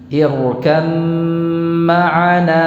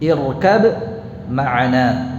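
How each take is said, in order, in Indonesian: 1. Huruf b menyatu menjadi m panjang yang ditahan dan sengau. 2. Huruf b diucapkan sebelum ma'ana yang berdiri sendiri. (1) "Ditahan dulu, dengungkan dengan sempurna" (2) "Itu kalau dibaca secara terpisah"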